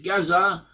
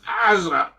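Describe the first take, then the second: First: The name begins with a clear G sound. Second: The name begins with a guttural sound. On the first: This is the English form of the name. "We call it Gaza" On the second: This is the Hebrew form of the name. "in Hebrew, is pronounced Azza"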